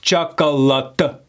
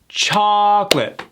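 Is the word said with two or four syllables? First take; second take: four; two. First: The word is said with four syllables. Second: The word is said with two syllables. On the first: The speaker calls it wrong. "They pronounce it with four syllables" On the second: The speaker calls it right. "it's pronounced with only two syllables"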